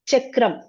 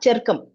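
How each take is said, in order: First: "Chakram" as chak-kram, r after k; correct cluster pronunciation. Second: "charkam" as char-kam, sounds swapped; wrong r-first pronunciation. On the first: Teacher contrasting the right reading, "Chakram" with k before r. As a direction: say "Chakram" with k straight into r. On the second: Teacher showing the misreading to avoid, "charkam" with r ahead of k. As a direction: say "charkam" with r before k. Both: Shown as a demonstration. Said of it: "not charkam".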